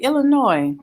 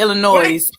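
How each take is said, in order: First: The final S is silent. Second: The final S is pronounced. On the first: The speaker calls it right. "without an S" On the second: The speaker calls it wrong. "Some people be like"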